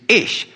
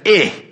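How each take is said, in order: First: The word ends with a clear 'sh' sound. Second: The word ends without a 'sh' sound. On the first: The speaker calls it right. "Make sure you put the sh in there" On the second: The speaker calls it wrong. "Now don't say"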